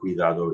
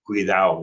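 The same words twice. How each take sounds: First: The d sound in the ending is kept. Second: The d sound in the ending is dropped. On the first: This is the standard form. "instead of cuidado" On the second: This is the regional New Mexican form. "we drop the D and ado endings"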